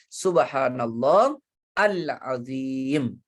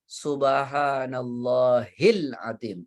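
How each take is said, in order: First: There is a stop before the last word. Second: The words are joined without a stop. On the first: "kalau dia mau berhenti" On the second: "Yang benar subhanallahil azim langsung"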